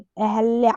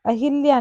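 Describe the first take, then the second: First: अहल्या with no i after ह; correct pronunciation. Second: अहिल्या with i after ह; wrong pronunciation. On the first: Teacher correcting the name, अहल्या without i. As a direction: say अहल्या as a-hal-ya. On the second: Teacher showing the error, अहिल्या with hi. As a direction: say अहिल्या as a-hi-lya. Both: Shown as a demonstration. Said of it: "अहिल्या नहीं".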